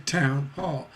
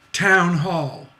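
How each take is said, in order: First: Town hall with town and hall stressed evenly; both syllables stressed. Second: Town hall with the stress on town. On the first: Teacher showing town hall with both words stressed. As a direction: give town and hall equal weight. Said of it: "Both stressed syllables". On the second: Teacher demonstrating town hall with stress on town. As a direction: lean hard on town in town hall. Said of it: "You don't say town hall". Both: Shown as a demonstration.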